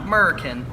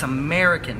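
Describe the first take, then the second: First: It is said in a Texan accent. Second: It is said without a Texan accent. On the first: The speaker calls it wrong. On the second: The speaker calls it right.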